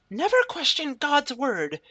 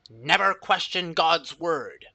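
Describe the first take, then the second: First: The voice sounds higher and more feminine. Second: The voice sounds plain and less feminine.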